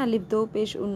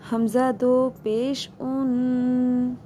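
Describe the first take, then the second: First: अलिफ named instead of हमज़ा, quick; wrong reading. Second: हमज़ा दो पेश उन said slowly, each part drawn out; correct reading. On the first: Teacher showing students the wrong way to spell it. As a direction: say अलिफ दो पेश उन as the mistake. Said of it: "ऐसे तो नहीं पढ़ेंगे ना". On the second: Teacher giving students the correct slow spelling. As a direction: drawl हमज़ा दो पेश उन carefully. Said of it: "नहीं, हमज़ा दो पेश उन". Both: Shown as a demonstration.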